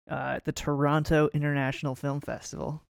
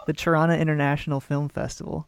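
First: "Toronto" with both t's crisp, tuh-RON-toe; careful "Toronto", every syllable and the final t sounded; over enunciating. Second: "Toronto" said like "Trawna", second t dropped; local pronunciation. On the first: Real, not acted. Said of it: "I have to enunciate every word". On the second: Shown as a demonstration. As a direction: clip "Toronto" to "Tronno", the local way. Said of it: "That's better".

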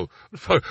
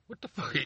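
First: Said in the usual way. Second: Barely voiced disbelief under the breath; muttered aside. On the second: Real, not acted. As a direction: drop it almost to nothing, stunned. Scoffing at people's opinion.

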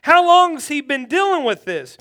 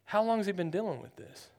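First: Said in the usual way. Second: Very calm. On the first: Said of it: "he's like". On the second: Retold or imitated. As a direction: play Jesus as a picture of calmness, hushed. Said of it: "but he says very calmly".

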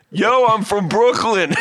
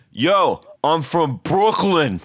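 First: Higher, slow, laughing through it; laughing Brooklyn impression; cracking up imitating him; Brooklyn dude laughing. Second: Slow, drawn-out Brooklyn guy; imitating concert dude. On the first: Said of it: "He goes". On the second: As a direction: drag it out like a street guy. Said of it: "And he goes".

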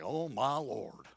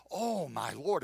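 First: OH drawn out low and soft, sighing it; weary, low and drawn-out lament; dejected "oh my Lord". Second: Said in the usual way. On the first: Shown as a demonstration. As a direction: say "Oh, my Lord" slowly, sinking in pitch. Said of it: "It's more like". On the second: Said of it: "it isn't, uh, like".

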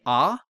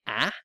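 First: "ah" with an open back vowel, as in "father"; open, back "ah" sound; American open vowel. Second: "ah" said as a flattened "a", as in "cat"; Canadian front vowel. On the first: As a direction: say "ah" like the vowel in "car". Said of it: "Americans are more prone to saying". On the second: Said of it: "Canadians are more prone to saying". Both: Shown as a demonstration.

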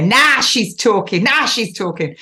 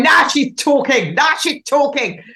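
First: Put-on northern accent. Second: Put-on playful northern English accent, high and lively; mock Northern bloke cheering. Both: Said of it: "did you like my northern accent there".

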